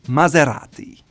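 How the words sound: It is said the Italian way, rolled R. The speaker calls it right. "you have that rolled R"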